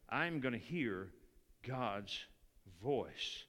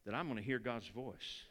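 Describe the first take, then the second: First: "I'm gonna hear God's voice" broken up, with a pause before "God's" and before "voice"; slow, deliberate stress. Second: Said in the usual way. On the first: Shown as a demonstration. Preacher driving the promise home to the church, pausing on "God's" and "voice". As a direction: lower and softer, laying down "God's" and "voice" one at a time.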